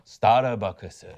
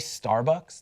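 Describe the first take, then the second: First: It is said in a put-on Japanese accent. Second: It is said in a normal American accent.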